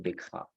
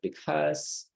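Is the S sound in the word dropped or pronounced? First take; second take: dropped; pronounced. First: The S sound is left out entirely. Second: The S sound is clearly pronounced. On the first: The speaker calls it wrong. "You say because. So letter S is not present" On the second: The speaker calls it right. "So because, spa, relax"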